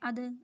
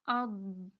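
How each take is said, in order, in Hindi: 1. अंतिम व्यंजन झटकेदार उछाल के साथ छोड़ा जाता है। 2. अंतिम व्यंजन बिना किसी झटके के स्थिर रखा जाता है। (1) "ऐसे नहीं करना" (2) "आपने इनको हिलाना नहीं है"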